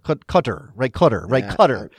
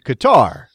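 First: It is said closer to the native pronunciation. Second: It is said with an American pronunciation. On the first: "the closest is like Qatar or Qatar" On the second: "as Americans and we say Qatar"

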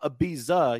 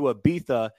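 First: It is said in a plain English way. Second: It is said in a showy Spanish-style way. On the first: "it's not Ibiza" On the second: "I said it like that on purpose"

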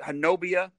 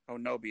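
First: The name ends with an extra 'uh' syllable. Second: The name ends on a short 'ee' sound. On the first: It is a guess based on how the name looks. The speaker calls it wrong. "is it Honubia?" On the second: It is how people in the area say it. The speaker calls it right. "the locals pronounce it Honubby"

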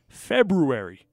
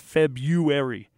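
First: The first r is pronounced, sounding like roo. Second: The first r is dropped, sounding like yoo. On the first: "I have always pronounced it February" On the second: "it's actually pronounced February"

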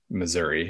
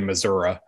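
First: The ending of the word is said in full. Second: The ending of the word is rounded off. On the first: This is how most residents say it. "to most people, I would say we still say Missouri" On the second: This is how older, rural residents say it. "round it off and just basically say Missouri"

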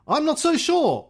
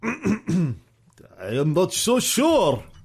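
First: It is said in the reader's plain accent. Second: It is said in a put-on Russian accent.

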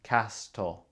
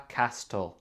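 Both takes have the same delivery.

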